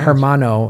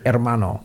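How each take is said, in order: First: The word starts with an audible h sound. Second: The word starts without any h sound. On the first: The speaker calls it wrong. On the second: The speaker calls it right.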